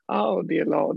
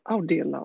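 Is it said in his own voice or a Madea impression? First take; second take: Madea impression; own voice. First: It is said in a Madea impression voice. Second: It is said in his own natural voice.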